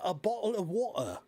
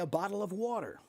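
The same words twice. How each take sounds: First: It is said with a British accent. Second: It is said with an American accent.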